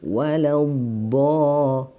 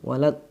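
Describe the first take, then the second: First: The final sound keeps flowing without a break. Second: The final sound is cut off abruptly. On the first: The speaker calls it right. "tapi waladh, nah seperti itu" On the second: The speaker calls it wrong. "tidak boleh terputus"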